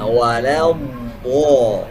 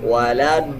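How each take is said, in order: First: The consonant is a heavy emphatic sound. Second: The consonant is a plain light d sound. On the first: The speaker calls it right. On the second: The speaker calls it wrong.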